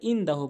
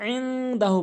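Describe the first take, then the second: First: It begins with a plain glottal stop. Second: It begins with a tight mid-throat sound. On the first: The speaker calls it wrong. "আইনের জায়গায় হামজাইনে উচ্চারণ করে" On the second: The speaker calls it right. "আইনটি হলকের মাঝখান থেকে"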